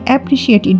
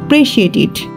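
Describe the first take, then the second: First: The first vowel is kept at normal speed. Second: The first vowel is dropped and it is fast.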